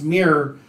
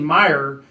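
First: The name rhymes with 'near'. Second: The name rhymes with 'fire'. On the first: The speaker calls it right. "it's pronounced Mirror" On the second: The speaker calls it wrong. "we were saying Meyer, and it's not"

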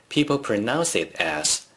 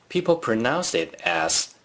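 No difference in how they are said.

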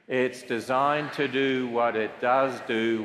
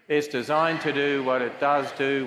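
First: It is said slowly. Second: It is said faster and louder.

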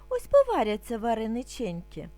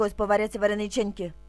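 First: It is said calmly at a slow pace. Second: It is said at a very fast pace. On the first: "Спочатку будемо вимовляти спокійно, не спіша" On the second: "А тепер дуже швидко"

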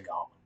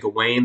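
First: The name does not end sounding like Wayne. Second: The name ends sounding like the word Wayne. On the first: "so I'm just going to say Gawain" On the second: "I'm not going to say Gawain. That makes me think of, like, Gawain's World"

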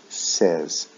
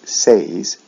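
First: The vowel is a short 'eh' sound. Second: The vowel is a long 'ay' sound. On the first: The speaker calls it right. "we say says, short E, eh sound" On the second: The speaker calls it wrong. "we don't say says"

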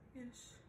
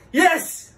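First: It is said in a sad tone. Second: It is said in an angry tone.

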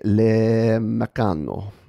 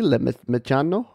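First: The ending sounds Italian rather than French. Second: The ending sounds French rather than Italian.

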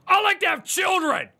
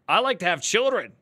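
First: The line is said loudly, with anger. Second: The line is said calmly, without anger.

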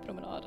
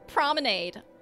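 First: The word is pronounced the Swedish way. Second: The word is pronounced the American English way. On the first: "In Swedish we would say promenade... So I'm not going to say promenade" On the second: "But I'm speaking American English right now... I'm going to say promenade"

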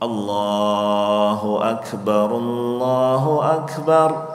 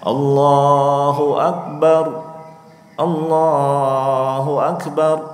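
First: The two phrases run together without pause. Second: A pause separates the two phrases. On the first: It counts as one takbir. The speaker calls it right. "Tapi Allahu Akbar, Allahu Akbar, paham ya? Nah, itu satu, jadi enggak dipisah ya" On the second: It counts as two takbirs. The speaker calls it wrong. "bukannya Allahu Akbar, Allahu Akbar, enggak, itu jadi dua gitu ya"

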